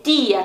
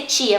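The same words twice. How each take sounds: First: Tia as "tee-ah", no ch sound; soft pure t. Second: Tia as Brazilian "tchia"; palatal t. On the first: Teacher correcting to Spanish tia, pure t. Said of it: "também é bem suave". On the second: Teacher showing learners what to avoid, tia as tchia. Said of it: "não vai ser tia". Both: Shown as a demonstration.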